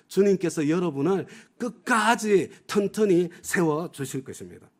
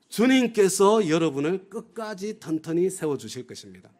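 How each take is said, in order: First: The stress is on 끝까지 튼튼히. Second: The stress is on 주님께서.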